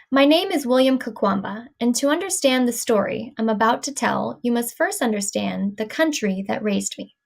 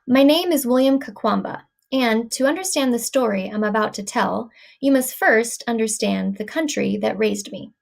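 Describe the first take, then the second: First: Same sentence again, phrase groups with little breaks; reading in chunks. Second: Sentence read in phrase groups with small pauses; group the words into chunks, slight stretch between. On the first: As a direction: stretch the ends of phrases slightly. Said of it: "Let's do it again". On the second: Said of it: "So I'll go ahead". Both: Shown as a demonstration.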